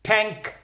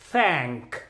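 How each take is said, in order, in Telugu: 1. ఇది గట్టిగా, నొక్కి పలికే t శబ్దంతో మొదలవుతుంది. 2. ఇది మృదువైన th శబ్దంతో మొదలవుతుంది. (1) "మనం సామాన్యంగా టీహెచ్ ఏఎన్కేని ట్యాంక్ అని పలుకుతున్నాం" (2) "మరి దీన్ని ఎలా పలకలో చూద్దాం"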